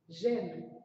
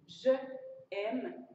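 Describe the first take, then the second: First: The vowel of 'je' drops, joined as one syllable. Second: Two vowels are said separately, 'je' then 'aime'. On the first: The speaker calls it right. "ce qui fait une bonne prononciation" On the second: The speaker calls it wrong. "ça fait voyelle, voyelle. C'est bizarre. La prononciation est bizarre"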